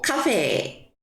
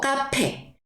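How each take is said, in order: First: The middle consonant is a soft breathy f-like sound. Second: The middle consonant is a hard p sound. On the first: "후 발음으로 해줍니다" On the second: "프, 프 해가지고 뭐 카페"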